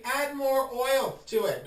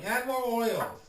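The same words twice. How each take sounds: First: Higher, drawn-out encouragement; slow coaxing. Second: Said in the usual way. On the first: Shown as a demonstration. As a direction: linger on the words like a sly nudge. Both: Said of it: "if you feel the need".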